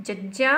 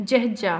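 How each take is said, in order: First: ججا with a clean, plain j; ججا without any breath, steady pitch; ججا as a simple jaja; plain ja sound. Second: جهجا with an audible h and a falling tone; جهجا said as jəhja, falling; aspirated jh. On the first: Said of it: "هن کي پڙهنداسين ججا". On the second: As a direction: breathe the h in جهجا and let the pitch drop. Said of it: "هن جهجا". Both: Shown as a demonstration.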